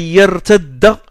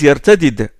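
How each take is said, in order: First: The two d sounds merge into one long d. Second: A vowel separates the two d sounds. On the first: This is how other tribes say it. "l'élision" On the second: This is how the Quraysh tribe says it. "ils n'emploient pas... l'élision"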